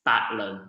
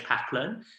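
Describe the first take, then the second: First: The name begins with a B sound. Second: The name begins with a P sound. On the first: "the pronunciation in Cantonese is Bat" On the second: "my full name is Pak Lun"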